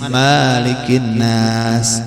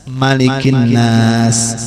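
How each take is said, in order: First: The first vowel of malikin is drawn out long. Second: The first vowel of malikin is short. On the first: The speaker calls it wrong. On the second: The speaker calls it right.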